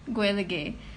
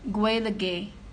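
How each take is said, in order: First: It is said the way midwestern Ireland says it. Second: It is said the way midwestern Ireland says it.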